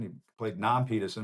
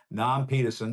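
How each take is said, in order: First: A hint of Cliff Clavin's Boston; Boston accent. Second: Put-on Boston accent. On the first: Host mimicking Cliff Clavin, lightly Boston accent. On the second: Host imitating Cliff Clavin, light Boston accent. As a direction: say Nam Peterson like a Boston barfly. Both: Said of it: "as Cliff Clavin might say".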